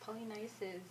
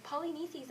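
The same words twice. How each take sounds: First: Polynices said pol-ee-NYE-sis, the third syllable rhyming with nice; corrected Polynices. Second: Polynices said pol-ee-NEE-seez, ending in a long ee-seez; Polynices mispronounced. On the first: Shown as a demonstration. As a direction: Polynices with a long i sound, stress on NYE. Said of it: "It's Polynices". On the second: Real, not acted. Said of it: "You can't even say your brother's name right".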